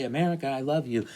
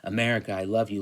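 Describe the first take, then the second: First: Quick, higher, mock-gushing "America, I love you"; gushing patriotic. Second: Said in the usual way. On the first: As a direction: rattle it off like a patriotic pledge. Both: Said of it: "Like, he's gonna say".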